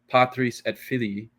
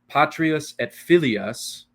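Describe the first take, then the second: First: The words end in '-is' and '-ii' sounds. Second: The words end in '-ias' sounds. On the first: The speaker calls it right. "completely clearly different than" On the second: The speaker calls it wrong. "if the end of a word be mispronounced"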